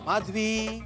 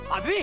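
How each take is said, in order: First: The name is called in a loving tone. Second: The name is called in an irritated tone.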